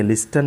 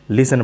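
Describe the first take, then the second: First: "लिस्टन" with the T sounded; wrong pronunciation. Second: "लिसन" with a silent T; correct pronunciation. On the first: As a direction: say "लिस्टन", pronouncing the silent T. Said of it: "ये टी जो है silent है". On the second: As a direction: say "लिसन", no T after the S. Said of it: "लिसन पढ़ते हैं". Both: Shown as a demonstration.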